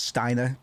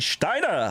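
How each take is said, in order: First: The name begins with a plain 's' sound. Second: The name begins with a 'sh' sound. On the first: "I normally pronounce it as Steiner" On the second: "I can't help but sometimes add the sh to the front of S words"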